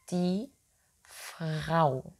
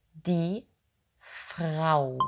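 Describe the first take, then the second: No difference in how they are said.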